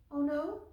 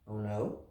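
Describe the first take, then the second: First: High surprised question; mother surprised. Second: Low, plain puzzled question; father surprised. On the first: Mother surprised that Loretta wants no wheelchair. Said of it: "said her mother". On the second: Father puzzled by Loretta refusing the wheelchair. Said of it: "said her father". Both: A narrator's reading.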